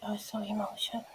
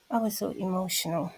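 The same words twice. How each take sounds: First: Hushed fast repeat; whispered. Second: Said in the usual way. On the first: Real, not acted. Whispering to viewers about how emotional she felt. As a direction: breathe it out, overcome.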